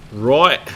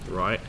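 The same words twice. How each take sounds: First: Loud, rising Australian "roit"; hammed-up Australian exclamation; mock Australian accent. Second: Said in the usual way. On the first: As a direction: punch it out in a broad Australian accent.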